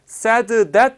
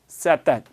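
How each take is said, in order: First: The two words are said separately with d. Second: The words are linked and the d disappears. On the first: "said that 하지 않고 연결해서 발음을 했고" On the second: "앞에 발음이 죽고 뒤에 발음 said that, said that 이렇게 발음이 됩니다"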